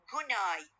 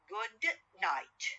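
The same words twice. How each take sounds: First: The end of good becomes a nasal n sound. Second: The end of good has a clear d sound. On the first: "when I uh, pronounce them rapidly, ... it will be changed into good night" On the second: "the words good night"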